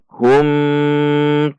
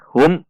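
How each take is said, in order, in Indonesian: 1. Bunyi m di akhir ditahan lama. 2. Bunyi m di akhir dihentikan mendadak. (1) "Tidak boleh dibaca panjang" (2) "Atau dibaca dihentak"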